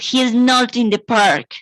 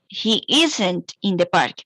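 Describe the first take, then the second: First: The words 'is not' are said in full. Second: The words 'is not' are contracted to 'isn't'.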